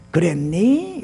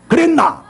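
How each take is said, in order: First: 그랬니 with the ending lifted gently; rising soft ending. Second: 그랬나 high, loud and blunt; rough blunt ending. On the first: Preacher showing a gentler way to ask, 그랬니 rising at the end. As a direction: lift the last syllable of 그랬니. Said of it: "끝을 좀 올려요". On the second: Preacher showing the wrong way to ask, 그랬나 rough and loud. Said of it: "이러면 안 돼". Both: Shown as a demonstration.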